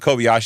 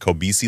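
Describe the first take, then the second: First: The name is said like Kobayashi. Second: The name is said like Kobeisi. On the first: "I always saw the Kobayashi letter, but I know it's not. That's not the way you pronounce it" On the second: "I think it's the Kobeisi letter"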